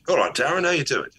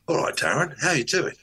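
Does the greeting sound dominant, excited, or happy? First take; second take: excited; happy. First: The greeting sounds excited and welcoming. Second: The greeting sounds happy and cheerful. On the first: "One says I'm excited to see you, which is my chi energy" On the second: "I can do a happy energy"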